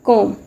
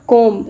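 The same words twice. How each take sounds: First: "comb" as KOME; silent B. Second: "comb" ending in an audible B; sounded B. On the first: Teacher correcting the common mistake, silent B. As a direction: end "comb" on the M. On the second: Teacher showing learners what not to say, B sounded. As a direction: say "comb" as KOM-B. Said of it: "It's not comb". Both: Shown as a demonstration.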